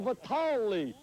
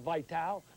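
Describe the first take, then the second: First: The name ends with an added ee vowel. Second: The name ends after the L sound. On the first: The speaker calls it right. "It's a Vitali" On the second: The speaker calls it wrong. "It's not Vital"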